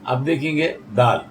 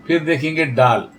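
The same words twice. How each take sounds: First: दाल said with a soft dental d and a long aa; teacher naming the letter दाल with a dental d; letter name dal. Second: डाल said with a hard retroflex d, tongue curled back; teacher naming the letter डाल with a retroflex d; letter name daal. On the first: Teacher shows students how to say दाल, careful dental d. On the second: Teacher sets डाल against दाल, retroflex d stressed. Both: Shown as a demonstration.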